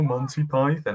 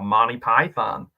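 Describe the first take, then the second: First: It is said in a British accent. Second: It is said in an American accent.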